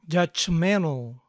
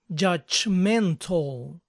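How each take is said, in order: First: The T sound in the middle is dropped. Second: The T sound in the middle is pronounced.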